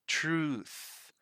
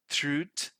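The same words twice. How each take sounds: First: The word ends with a clear voiceless 'th' sound. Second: The word ends without a clear voiceless 'th' sound. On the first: The speaker calls it right. "The right way to pronounce it both in British and American English is truth" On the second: The speaker calls it wrong. "Sometimes people pronounce this as truth, truth. That's not right"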